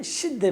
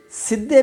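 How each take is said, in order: First: شدے said with sh and a doubled d, shid-de; Arabic variant demo. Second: سدے said with a plain s and a doubled d, sid-de; Arabic variant demo. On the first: Teacher to student: شدے with sh, doubled d. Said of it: "شدے بھی آپ کہہ سکتے ہیں". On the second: Teacher to student: سدے with s, doubled d. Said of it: "سدے بھی آپ کہہ سکتے ہیں". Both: Shown as a demonstration.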